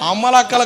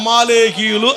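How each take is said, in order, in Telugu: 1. ఈ పేరును 'ammalakkalu' అని అంటారు. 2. ఈ పేరును 'amalekiyulu' అని అంటారు. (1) "అమ్మలక్కలు కాదు" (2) "అమాలేకీయులు అన్నదానికి"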